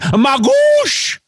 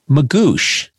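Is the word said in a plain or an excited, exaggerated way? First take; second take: excited; plain. First: The word is said in an excited, exaggerated voice. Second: The word is said in a plain, normal voice. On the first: "immediately in the ad, I started going" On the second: "I just wanted to say it normally that one time"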